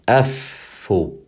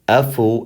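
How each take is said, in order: First: The middle consonant is held long, with a pause. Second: The middle consonant is short, with no hold. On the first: The speaker calls it right. "you're going to pause on it because of the shadda" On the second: The speaker calls it wrong. "instead of saying normally"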